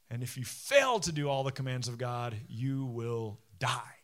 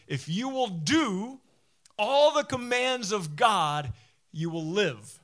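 First: Low, solemn warning, slowing at the end; grave warning. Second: High, loud, drawn-out promise; emphatic proclamation. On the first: Preacher quoting Moses's warning of failure, grave. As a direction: drop low and draw out the final words. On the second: Preacher quoting Moses's promise to the obedient, emphatic proclamation. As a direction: proclaim it slowly and powerfully, settling on the last words. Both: Retold or imitated.

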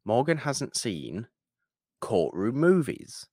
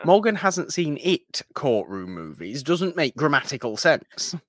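First: "Morgan Hasn't Seen" read slowly, then "Courtroom Movies" slowly after a pause; careful title read. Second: "Morgan Hasn't Seen It Courtroom Movies" said quickly, run together and higher, with the wrong "It" left in; plain. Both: Shown as a demonstration. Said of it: "look at the way we title the episodes".

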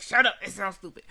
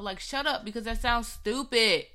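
First: Louder, fast blunt snap; the worse way she actually said it; harsher version. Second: Said in the usual way. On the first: Retold or imitated. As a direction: spit it out rudely. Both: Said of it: "I said it, like, way worse".

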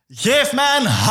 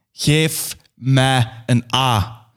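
First: High cheerleader call; rallying call. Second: 1 slow final call. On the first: [name] calls the silent crowd, high rallying cry. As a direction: call out to the crowd, much higher. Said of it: "En ik roep". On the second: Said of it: "En tenslotte roep ik". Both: Acted.

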